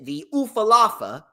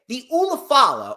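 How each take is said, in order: First: The word is said as u-fa-la-fa. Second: The word is said as u-la-fa-la.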